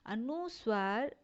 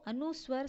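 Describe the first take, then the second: First: अनुस्वर said slowly with the nasal sound drawn out; slow अनुस्वर, letting the sound ring through the nose; nasal demo. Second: Said in the usual way. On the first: Shown as a demonstration. (अनुस्वर को धीरे, नाक से गूँजाकर बोलें) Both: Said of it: "ध्वनि नाक से निकलती है".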